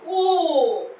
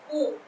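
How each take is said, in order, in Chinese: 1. 这个元音要拉长发音。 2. 这个元音要短促地收住。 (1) "这是长音" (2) "我们短是短音"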